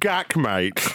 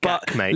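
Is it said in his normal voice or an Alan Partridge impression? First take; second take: Alan Partridge; normal voice. First: It is said in an Alan Partridge voice. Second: It is said in his own normal voice.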